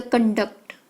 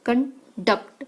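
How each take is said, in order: First: Conduct with the emphasis meant for CON, the noun; stress on first syllable. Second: Conduct split in two, emphasis on DUCT, the verb; stress on second syllable. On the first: Teacher shows learners conduct as a noun, first-syllable stress. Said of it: "emphasize on the first syllable". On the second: Teacher shows learners conduct as a verb, second-syllable stress. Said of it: "emphasize on the second syllable". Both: Shown as a demonstration.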